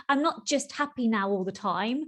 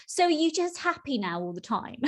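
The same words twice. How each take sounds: First: Said in the usual way. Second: Mock-quizzical, higher question; a light sing-song dig; sceptical tone. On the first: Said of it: "the answer is no". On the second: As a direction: imitate someone half-teasing. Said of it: "it typically sort of kind of is in that tone".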